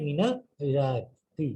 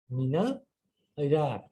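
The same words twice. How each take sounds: First: মিনাল ইরাকি spelled out very slowly, rising on মিনাল; slow deliberate model. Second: Said in the usual way. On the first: Shown as a demonstration. Teacher models মিনাল ইরাকি slowly for students. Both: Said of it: "কোথা থেকে?".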